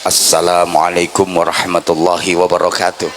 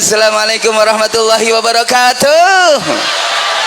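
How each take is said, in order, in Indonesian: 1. Disampaikan dengan gaya formal yang sederhana. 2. Disampaikan dengan gaya pamer, seperti penyanyi. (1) "salamnya ya kayak tadi" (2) "salam saya pakai gayanya penyanyi"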